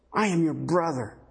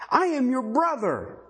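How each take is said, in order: First: Subdued cry. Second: Mild imitated cry, pitched high. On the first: Retold or imitated. Preacher repeating the man's response to his brothers, subdued. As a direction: bring the imitated cry down to usual pitch. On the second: Preacher voicing the man accused by his brothers, mildly crying out. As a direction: call it out higher, as a pleading retold cry. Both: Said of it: "He cried".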